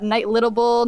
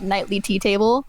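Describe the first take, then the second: First: It is split as night, littable. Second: It is split as nightly, tea, table.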